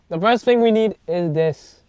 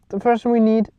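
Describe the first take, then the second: First: It is said in an excited, lively way. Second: It is said in a plain, flat way.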